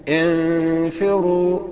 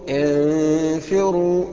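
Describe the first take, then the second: Both takes have the same delivery.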